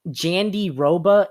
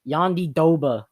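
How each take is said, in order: First: The name is said the English way. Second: The name is said the native way. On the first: "if you want to pronounce it in an English term" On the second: "they were pronouncing it"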